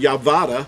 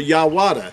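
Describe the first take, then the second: First: The middle consonant is a V sound. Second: The middle consonant is a W sound. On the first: "we could not pronounce Yehuda Yavada" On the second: "or Yawada"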